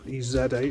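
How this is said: It is said in a British way.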